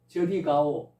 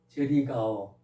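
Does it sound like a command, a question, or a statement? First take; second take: command; statement. First: It is said as a firm order. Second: It is said as a plain statement. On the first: The listener is told to go over there. "명령했으니까 명령문이죠" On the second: The speaker says they themselves are going there. "평서문으로"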